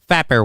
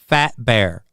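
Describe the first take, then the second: First: The two words are run together quickly. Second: The two words are spaced apart clearly. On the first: The speaker calls it wrong. "you say it too fast" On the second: The speaker calls it right. "You've got to space it out"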